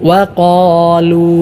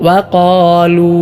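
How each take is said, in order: Both takes have the same delivery.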